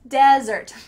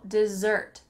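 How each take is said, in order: First: The stress is on the first syllable. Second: The stress is on the second syllable. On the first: It names a dry, sandy place. "the emphasis is on the first part" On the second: It names a sweet course after a meal. "The emphasis is on that second syllable"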